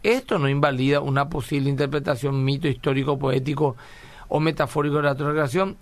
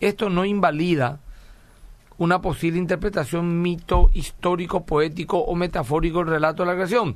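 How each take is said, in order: First: It is asked as a question, rising at the end. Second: It is read as a statement, falling at the end.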